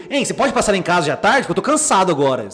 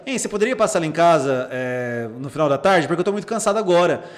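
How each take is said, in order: First: Pushy, louder demand; misread as aggressive. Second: Mildly polite request; polite reading. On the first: Therapist showing how the person misreads the message, irritated. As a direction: read the text as a mildly irritated demand. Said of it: "a pessoa lê assim". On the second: Therapist rereading a patient's message another way, politely. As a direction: read it as a courteous, unhurried ask. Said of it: "deixa eu ler de outro jeito". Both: Shown as a demonstration.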